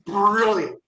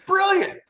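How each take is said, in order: First: Said in the usual way. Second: Brilliant, pitched way up and thrown out in delight; excited high brilliant. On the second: Real, not acted. To podcast hosts, the UFC show idea, delighted high brilliant. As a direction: push the second brilliant up high with glee. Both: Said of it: "repeated for emphasis".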